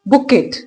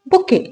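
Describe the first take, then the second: First: The word ends with a clear t sound. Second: The word ends without any t sound. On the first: The speaker calls it wrong. "No, that's incorrect. अब इसके अंदर जो टी है वो silent है" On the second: The speaker calls it right. "इसकी exact pronunciation क्या है?"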